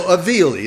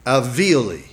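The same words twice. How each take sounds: First: Alveoli said boldly, higher and louder, run quickly as /əvili/; confident retry. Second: Alveoli tried out carefully, unsure of the vowels; test-drive the word Alveoli, half expecting to be wrong; tentative first try. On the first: Preacher reclaiming the word after nobody corrects him, confident. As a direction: commit to alveoli with a grin, quick and loud. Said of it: "nobody knows maybe, and that's good". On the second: Preacher trying a hard word on the congregation, tentative. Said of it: "So I'll try it and probably get it wrong". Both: Shown as a demonstration.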